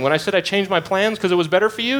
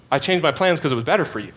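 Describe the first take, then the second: First: Higher, quick, rising toward "you" as a lead-in; quicker and higher, building toward the question; emphatic rising question. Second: Quick and settled, falling firmly on "plans"; emphatic falling statement. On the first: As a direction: set up the point with a lifting tune. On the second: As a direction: state it back as plain fact. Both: Retold or imitated. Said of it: "He's emphatically saying".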